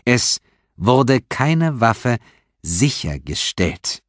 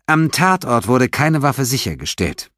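First: Each word drawn out, very slow; very slowly. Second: Said in the usual way. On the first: A narrator's reading. Detective repeats to suspect very slowly. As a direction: spell it out slowly like to a child. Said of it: "wiederholte Stephanopoulos sehr langsam".

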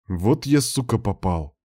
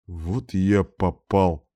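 First: Said in the usual way. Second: Slow, groaning lament; moaning. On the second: A narrator's reading. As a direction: drag it out like a weary groan. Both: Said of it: "простонал Дмитрий".

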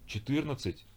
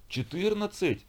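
First: High, stunned «Четырнадцать?» as an asking repeat; boy repeats the number, shocked; stunned question. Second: Put-on older brother howls at his punishment; wailing howl. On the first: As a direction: echo «Четырнадцать?» in disbelief, rising high. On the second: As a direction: wail «Четырнадцать?» up high in outrage. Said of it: "взвыл старший". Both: A narrator's reading.

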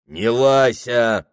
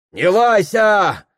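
First: Slow, growled clerk comeback; bristling retort. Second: High, loud, slow retort; crowd snapping back. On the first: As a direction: bristle back at her. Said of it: "щетинился приказчик". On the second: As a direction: snap back at the officer. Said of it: "огрызается на пристава толпа". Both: Acted.

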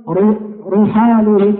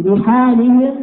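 First: رحالهم with a thick ra, slow; wrong heavy r. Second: رحالهم with a light, thin ri. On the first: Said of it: "خطأ". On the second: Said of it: "بترقيق الراء". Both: Shown as a demonstration.

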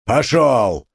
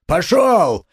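First: Пошёл! barked firmly; mild shout; stern order. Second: Forceful command; shouting. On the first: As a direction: move the crowd off. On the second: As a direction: drive the crowd back. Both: A narrator's reading. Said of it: "разгонял он теснившихся кругом людей".

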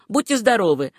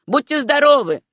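First: Understated gruff goodbye in the usual pitch; grumbled farewell. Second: Higher, louder parting call; called farewell. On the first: Baker sends Susanna off before work, mildly grumbling. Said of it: "проворчал он". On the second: Baker calls after Susanna as she leaves, raised hearty farewell. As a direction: call goodbye after someone leaving. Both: A narrator's reading.

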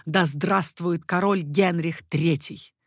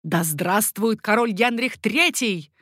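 First: Slow, measured, restrained hail; repeated acclamation. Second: Slow, raised cry of hail; shouted acclamation. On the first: Everyone repeats the queen's cry, measured acclamation. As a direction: echo the cry with understated force. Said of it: "Все повторили этот возглас". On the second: Mother hails her son as king, shouted acclamation. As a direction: cry it out, lifting towards the end. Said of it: "крикнула Екатерина". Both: A narrator's reading.

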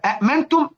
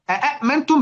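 First: "أأمنتم" with two separate hamzas. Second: "أأمنتم" with three hamzas in a row. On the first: Teacher recapping the root form, two hamzas sounded. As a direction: say "أأمنتم" with a stop after the first hamza. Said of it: "همزتين". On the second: Teacher recapping the added question hamza, three stops. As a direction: open "أأمنتم" on three separate glottal stops. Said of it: "بقت تلات همزات". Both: Shown as a demonstration.

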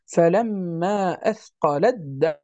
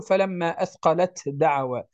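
First: أثقلت with its ta merged into the dal of دعوى; correct assimilation. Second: أثقلت with a clear separate ta before دعوى; wrong reading. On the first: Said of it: "وإنما نقول". (أثقلت مع إدغام التاء في الدال ببطء) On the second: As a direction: keep the ta of أثقلت distinct, no merging. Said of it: "فلا نقول". (أثقلت بتاء ظاهرة دون إدغام) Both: Shown as a demonstration.

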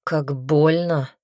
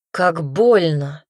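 First: Slow pained groan of the words; hurting, slow. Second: Slow, louder second cry of pain; the pain finally breaks through. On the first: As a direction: let the pain drag it out. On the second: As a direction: push the hurt out louder. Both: Acted. Hurt repeats the words.

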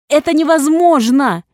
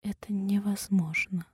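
First: Screamed high and loud; inhuman scream. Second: Stunned, breathy whisper; barely able to say it; shocked whisper. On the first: Heroine screaming at the nurse in denial. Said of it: "Нечеловечески заорала я". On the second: Heroine whispering in disbelief to the nurse. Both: A narrator's reading.

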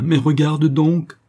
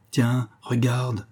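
First: Loud, high, stretched-out urging; raised, drawn-out exclamation of amazement; frantic, inhuman cry. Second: Slow, drawn-out astonishment; understated, awestruck slow delivery; inhuman, stunned voice. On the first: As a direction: cry out slowly, beside yourself with shock. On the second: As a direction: stretch the words out, transfixed. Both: A narrator's reading. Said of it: "d'une voix qui n'avait plus rien d'humain".

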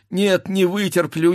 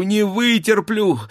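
First: Higher, anguished cry of "вытерплю"; first break of panic on "не вытерплю"; wife who cannot bear the sound of the fight; anguished outcry. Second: "вытерплю" pushed even higher and harder; second, more desperate "не вытерплю"; wife crying out as the sabres ring; rising anguish. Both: Acted. Wife frantic during sabre fight.

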